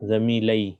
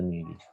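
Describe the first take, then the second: First: The ending has an 'a' vowel before the final 'ee'. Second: The ending goes straight into a single 'ee' vowel. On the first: The speaker calls it wrong. "ये इसको हम ऐसे नहीं पढ़ सकते। सॉरी, ज़मीलई थोड़ा पढ़ने में ये है।" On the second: The speaker calls it right. "पढ़ने में आसानी के लिए ज़मीली"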